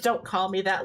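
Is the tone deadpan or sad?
deadpan. It is said flatly, without emotion.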